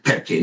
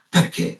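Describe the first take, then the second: First: Low deadpan echo of the uncle; flat echo. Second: A touch of an Italian uncle, pitched up; mock Italian uncle. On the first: Retold or imitated. Nephew throws the uncle's word back, deadpan. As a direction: repeat the question back, unimpressed. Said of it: "I'm like". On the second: Uncle asks the nephew why, lightly Italian. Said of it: "he's like".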